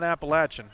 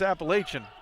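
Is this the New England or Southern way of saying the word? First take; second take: Southern; New England. First: It is said the Southern way. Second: It is said the New England way. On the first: This is how it is said in the south. "That's Southern" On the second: This is how it is said in the north. "in New England and where I've lived, it's Appalachian"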